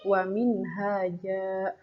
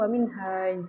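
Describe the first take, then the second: First: The last word ends on a lengthened a vowel. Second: The last word ends abruptly on a consonant. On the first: The speaker calls it right. "dibaca satu baris" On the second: The speaker calls it wrong.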